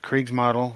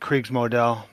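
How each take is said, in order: First: It is said with an English pronunciation. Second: It is said with a German pronunciation. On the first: "we all pretty much" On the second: "the Germans would pronounce it"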